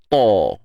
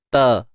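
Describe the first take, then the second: First: The consonant is heavy and thick. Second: The consonant is light and thin. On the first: The speaker calls it wrong. "ta tu pun terikut tebal sekali" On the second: The speaker calls it right. "huruf ta nipis"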